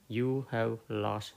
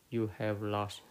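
No difference in how they are said.

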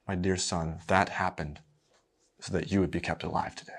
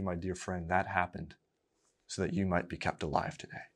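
First: Tender mother. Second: Quietly, to the congregation, softer; gentle reassurance. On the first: Acted. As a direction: gently reassure your little boy. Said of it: "She very sweetly looks him in the eye and says". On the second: Real, not acted. Preacher to his listeners, softly reassuring. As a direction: tell your dear friend kindly.

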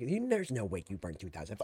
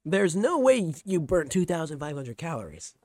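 First: Hammed-up imitation sinking low; exaggerated stepmom mimicry. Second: Loud, incredulous imitation of stepmom; corrected stepmom quote. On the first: Streamer mimicking stepmom doubting calorie count, hammed-up disbelief. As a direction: overdo the disbelief, dropping into a low garble. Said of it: "She didn't say it like that". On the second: Streamer re-quoting stepmom doubting calorie count, loud mock disbelief. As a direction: redo it clearly, punching the disbelief. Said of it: "She said".

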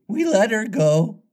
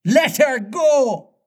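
First: High, pleased-with-himself sidekick; complacent. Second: Very high, drawn-out captain's cry; high pirate exclamation, slow and incredulous; outraged cry. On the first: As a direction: report it high and untroubled. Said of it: "Smee answered complacently". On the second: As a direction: cry it back in disbelief, stretched out. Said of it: "cried Hook". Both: A narrator's reading.

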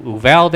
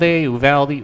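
First: UVALDE said "oo-VAL-day"; Spanish-style pronunciation. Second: UVALDE said "you-VAL-dee"; local pronunciation. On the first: Recounting an Argentinian's explanation, Uvalde as "oo-VAL-day". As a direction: end Uvalde on an open "day". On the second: Giving the Texan's version, Uvalde as "you-VAL-dee". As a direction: end Uvalde on a higher "dee". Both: Shown as a demonstration. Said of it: "whatever it is".

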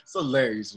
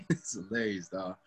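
First: Said in the usual way. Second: Soft laughing repeat. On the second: Real, not acted. Repeating the joke to his friend, laughing. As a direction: say it again through a quiet laugh.

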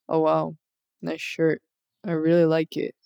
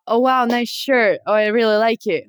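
First: Low, quiet, unimpressed monotone; deadpan text voice. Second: Livelier compliment with rising and falling tune; enthusiastic compliment. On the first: Friend showing how the compliment reads through text, deadpan. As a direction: read it like an emotionless text message. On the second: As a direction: say it like you really mean it. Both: Shown as a demonstration. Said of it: "through text it would be like".

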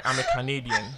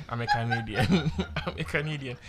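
First: Said in the usual way. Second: Laughing through the line; giggling while correcting it. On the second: Shown as a demonstration. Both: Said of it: "that didn't come out right".

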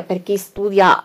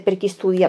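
First: "per chi studia" said again slowly and a bit louder, every word spaced out; slow, deliberate repeat. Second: Said in the usual way. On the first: Shown as a demonstration. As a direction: lean on "studia", slowly, so the class takes it in. (ripetuto lentamente, con enfasi su "studia")

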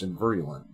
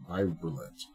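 First: Said in the usual way. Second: "Virulent" with a long i, like VY-rulent; alternative pronunciation. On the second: Real, not acted. Reader retrying "Virulent" to himself, first vowel as in "eye". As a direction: say "Virulent" starting like "virus".

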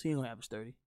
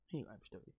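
First: Said in the usual way. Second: Much softer muttered echo; repeating the point almost under his breath; quiet repeat. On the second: Real, not acted. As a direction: drop it to an aside for yourself. Repeats line, second quieter.

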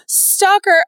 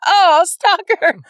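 First: Calling out stalker higher and louder, mock alarm. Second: Slow, loud, stretched oh, stalker; drawn-out mock accusation. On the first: To her cohost about a creepy guy, mock alarmed call. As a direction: warn of a creepy guy, half-joking and loud. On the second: To her cohost about a creepy guy, slow drawn-out mock accusation. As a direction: drag it out like a teasing accusation. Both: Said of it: "you're like".

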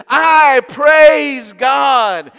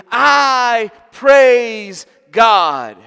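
First: Loud, high, very slow proclamation; shouted praise. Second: Loud, high, drawn-out proclamation; shouted praise. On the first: Old man shouting his praise to God. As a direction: lift your hands and shout it out. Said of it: "shouting at the top of his lungs". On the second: Preacher echoing the old man's loud praise. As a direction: proclaim it slowly at full voice. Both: Retold or imitated.

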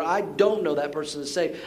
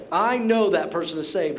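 First: Contrasting claim leaning on "don't"; stress on DON'T. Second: Firm claim leaning on "know"; stress on KNOW. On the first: Pastor refusing to judge salvation, stress on "don't". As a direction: set "don't" against the positive claim. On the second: Pastor refusing to judge salvation, stress on "know". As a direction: assert "know" as a sure verdict. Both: Retold or imitated. Contrasts two verdicts he won't give.

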